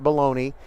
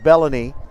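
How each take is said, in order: First: The name is said like the word baloney. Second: The name is said as bell-any. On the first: The speaker calls it wrong. "It is not Baloney" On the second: The speaker calls it right. "it is Bellany"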